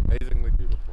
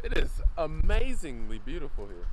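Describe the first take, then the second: First: Said in the usual way. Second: Amazingly stretched and stressed. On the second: Shown as a demonstration. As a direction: lean into amazingly, then trail off. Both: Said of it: "Yes, that's a word".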